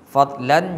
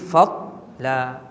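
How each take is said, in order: First: The word ends with an n sound. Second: The word ends on an open vowel. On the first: The reader continues without stopping. "Asalnya wa fadlan" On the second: The reader stops at this word. "bila kita berhentian, kita kena buang satu baris"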